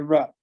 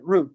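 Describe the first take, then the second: First: The vowel is a short u sound. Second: The vowel is a long oo sound. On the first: This is how people reading the name say it. "people, if they look at it, would say Rupp" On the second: This is how the family says the name. "I pronounce it Roop"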